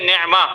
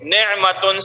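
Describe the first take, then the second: First: The word ends with an a vowel. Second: The word ends with a tun sound. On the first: The reader stops on this word. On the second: The reader continues without stopping.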